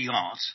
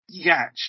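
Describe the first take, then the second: First: The word is said as 'yot', with no 'ch' sound. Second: The word is sounded out letter by letter, with the 'ch' pronounced. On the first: It is the real word for a sailing boat. The speaker calls it right. "only if the word was in their vocabulary knowledge" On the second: It is a made-up non-word from sounding out the spelling. The speaker calls it wrong. "if decoded phonically, gives you yacht"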